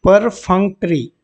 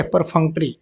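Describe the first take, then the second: First: परफंक्ट्री slowly, syllable by syllable; pronunciation demo. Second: Said in the usual way. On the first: Shown as a demonstration. Teacher shows students the pronunciation, परफंक्ट्री slow and segmented. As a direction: stretch out परफंक्ट्री in separate parts. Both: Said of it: "pronunciation इसका देख लेंगे".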